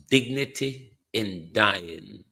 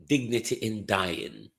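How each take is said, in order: First: "Dignity in Dying" drawn out slowly with a rising tune; slow, rising, sarcastic "Dignity in Dying"; slow ironic repeat. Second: Said in the usual way. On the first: Shown as a demonstration. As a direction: linger on "Dignity in Dying" as if in disbelief.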